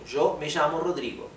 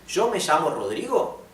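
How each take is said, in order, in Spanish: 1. Se dice con entonación de afirmación. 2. Se dice con entonación de pregunta. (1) "Es una aseverativa" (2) "quiero pasarlo a pregunta"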